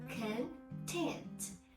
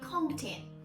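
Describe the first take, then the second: First: The stress is on the second syllable. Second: The stress is on the first syllable. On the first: It is the adjective. The speaker calls it right. "we stress on the second syllable as an adjective" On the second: It is the noun. The speaker calls it wrong. "do you still say content? Uh-uh"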